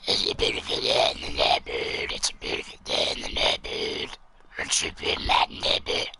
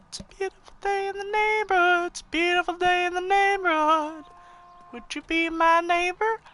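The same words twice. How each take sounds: First: Rasping, unvoiced zombie croak. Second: Much higher, sweet singsong voice. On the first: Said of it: "I like to call it the zombie voice". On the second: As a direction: sing it up high like a kids' show host. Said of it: "the zombie voice". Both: Shown as a demonstration.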